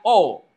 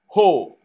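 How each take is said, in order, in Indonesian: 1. Kata ini langsung diawali dengan vokal. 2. Kata ini diawali dengan bunyi h berdesah. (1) "Kalau komanya koma biasa itu bacanya o" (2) "Ada hembus ho"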